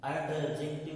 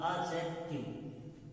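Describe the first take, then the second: First: एडजेक्टिव said with a full d sound; the rejected way of saying एडजेक्टिव; wrong take. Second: एडजेक्टिव slowly, the d dropped, like "ajective"; silent d. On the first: Teacher shows students the wrong एडजेक्टिव, plainly. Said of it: "एडजेक्टिव नहीं होता". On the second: Teacher drawls the corrected एडजेक्टिव slowly for students. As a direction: stretch out एडजेक्टिव with no d sound. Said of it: "इसका pronunciation डी नहीं होता, आ होता है". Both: Shown as a demonstration.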